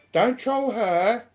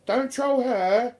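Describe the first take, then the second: No difference in how they are said.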